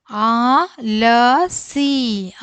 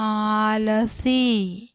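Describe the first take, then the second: First: ആലസി stretched out syllable by syllable; very slow reading. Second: Said in the usual way. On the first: Shown as a demonstration. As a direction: model ആലസി very slowly. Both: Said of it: "അക്ഷരങ്ങൾ ഓരോന്നോരോന്നായിട്ട് വായിക്കാം".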